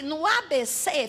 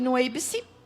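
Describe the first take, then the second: First: The letters are spoken with Portuguese pronunciation. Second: The letters are spoken with English pronunciation. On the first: It sounds plain and unrefined. The speaker calls it wrong. "fica feio" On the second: It sounds fancy and sophisticated. The speaker calls it right. "Olha que coisa mais chique falar"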